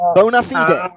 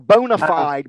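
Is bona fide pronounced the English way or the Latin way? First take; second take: Latin; English. First: It is pronounced the Latin way. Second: It is pronounced the English way.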